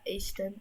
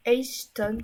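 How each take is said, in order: First: Ashton with an open "ah" opening; French-style Ashton. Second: Ashton with an English "ay" opening; English-style Ashton. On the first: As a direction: say "Ashton" as "ASH-tonne" in French. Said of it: "on va dire Ashton". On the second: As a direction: try "Ashton" as "AYSH-ton". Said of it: "ça se prononce comme ça". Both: Shown as a demonstration.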